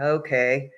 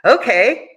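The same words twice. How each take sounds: First: It is said in a doubtful, negative tone. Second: It is said in a bright, positive tone. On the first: The speaker is unhappy or unconvinced. "okay means two totally different things" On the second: The speaker is happy or agreeing. "you can sound positive or negative with this word just by the tone of your voice"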